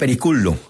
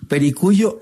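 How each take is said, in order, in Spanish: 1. La doble L se pronuncia como una L normal. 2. La doble L se pronuncia como un sonido parecido a la Y.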